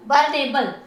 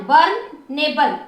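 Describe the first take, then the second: First: Said in the usual way. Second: बर्नेबल slowly, as burn and एबल; drawn-out, segmented बर्नेबल; syllable by syllable. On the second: Shown as a demonstration. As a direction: sound out the parts of बर्नेबल. Teacher splits word into syllables.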